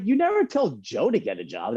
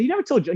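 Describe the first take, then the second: First: High, sulky accusation; aggrieved complaint. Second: Much higher, whining never; higher whiny complaint. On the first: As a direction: protest the unfairness. Complaint to mom about brother. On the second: Repeated complaint to mom. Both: Retold or imitated.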